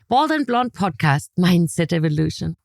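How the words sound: The voice sounds cheerful and upbeat. The speaker is in a good mood. "when I'm in a good mood"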